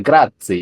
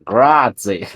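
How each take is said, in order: First: Grazie mit italienischem R und ts, höher; proper Italian Grazie. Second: Put-on Grazie in a thick English accent, flattened vowels; mock an Englishman saying Grazie. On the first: Retold or imitated. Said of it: "instead of, like". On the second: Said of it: "with the thickest English accent ever".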